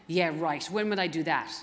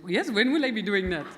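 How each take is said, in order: First: A clumsy, half-hearted Irish accent on a retold reply; lightly put-on Irish lilt, barely there; bad Irish accent. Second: A jokey, hammed-up Indian accent, louder, laughing through it; playful Indian accent, laughing at her own attempt; mock Indian accent. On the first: Mimicking her own usual reply in a bad Irish accent. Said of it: "that was a bad Irish accent". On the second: Redoing the reply to joke about her accents, mock Indian accent. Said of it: "they always sound Indian".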